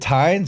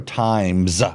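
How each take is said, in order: First: The final syllable ends with an n sound. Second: The final syllable ends with an m sound. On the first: "Is it Tines" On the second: "or Times?"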